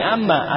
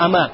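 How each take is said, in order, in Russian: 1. Звук «m» произносится долго, удвоенно. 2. Звук «m» короткий, одиночный. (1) "то есть не амма" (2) "Просто ама"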